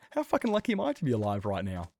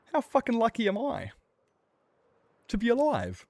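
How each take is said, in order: First: Said in the usual way. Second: High, loud disbelief; amazed exclamation. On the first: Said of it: "first said exclaimed". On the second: Real, not acted. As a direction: marvel at surviving. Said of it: "repeated plainly".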